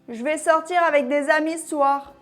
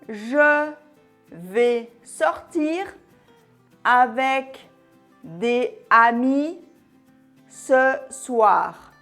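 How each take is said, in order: First: The words flow together smoothly, linked to each other. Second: Each word is separated, choppy and robot-like. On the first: "Écoute cette phrase" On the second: "sans enchaînement ni liaison. C'est vraiment saccadé. Un peu comme un robot"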